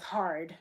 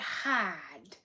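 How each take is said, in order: First: It is said in a plain accent, with the r. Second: It is said in a Boston accent, without the r. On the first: The word is easy to recognize. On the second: The word is hard to recognize.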